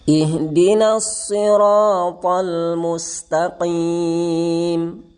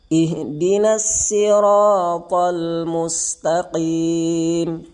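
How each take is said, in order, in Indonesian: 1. Sirat dimulai dengan bunyi s tebal. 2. Sirat dimulai dengan bunyi s biasa. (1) "Itu dengan huruf shad" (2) "Yang kedua dengan sin"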